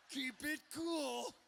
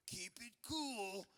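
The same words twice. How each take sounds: First: Slow, high, strained mom voice; mom insisting on cool. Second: Slow, hushed mom voice, drawn out; mock-cool mom, soft and stretched; mom playing it cool. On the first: Acted. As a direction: stretch it out high, urgently playing it cool. Mom repeats it, more forced. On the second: Mom greeting at the door.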